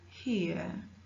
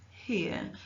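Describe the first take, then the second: Both takes have the same delivery.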